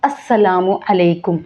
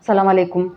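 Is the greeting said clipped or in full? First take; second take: full; clipped. First: Every syllable is said, including the opening syllable. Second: The opening syllable is dropped, giving a shortened greeting. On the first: The speaker calls it right. "అస్సలుగా ప్రొనౌన్స్ చేయాల్సింది అస్సలాము అలైకుం" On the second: The speaker calls it wrong. "ఎలా పడితే అలాగా సలాం అలైకుం అంటారు"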